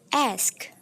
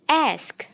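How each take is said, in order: First: The S sound comes before the K sound. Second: The same.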